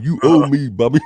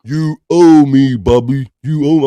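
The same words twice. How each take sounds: First: Louder mock demand; a lighter second try at the wronged friend; Wendy impression. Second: Loud, slow mock demand; Wendy impression. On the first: Host retrying his Wendy impression on Bobby. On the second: Host imitating Wendy scolding Bobby, hammed-up. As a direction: drag it out like a wronged friend. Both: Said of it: "I'm trying to do my Wendy impression".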